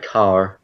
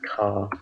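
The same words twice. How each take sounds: First: CAR with a strong final R sounded; car, ending on a hard American R. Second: CAR with the final R left silent; car, said the British way as "cah"; British R-less car. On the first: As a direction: pronounce the R at the end of car, American style. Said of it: "in the American English, a really R". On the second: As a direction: end car on the open vowel, no R. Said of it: "without the R". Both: Shown as a demonstration.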